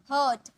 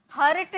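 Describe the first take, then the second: First: First हर्ट as "huht", no r; silent r. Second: हर्ट with r heard before t; sounded r. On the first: Teacher models the word for learners, r silent. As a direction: say हर्ट dropping the r before t. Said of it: "आर silent". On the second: Teacher shows the reading to avoid, sounded r. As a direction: say हर्ट with the r pronounced. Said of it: "हर्ट नहीं". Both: Shown as a demonstration.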